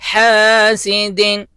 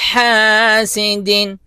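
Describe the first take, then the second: The two takes are said the same way.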